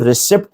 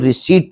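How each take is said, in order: First: A p sound is heard before the final t. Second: No p sound is heard before the final t. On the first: The speaker calls it wrong. "इसको रिसिप्ट नहीं पढ़ेंगे" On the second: The speaker calls it right. "पी silent है, इसको रिसीट पढ़ेंगे"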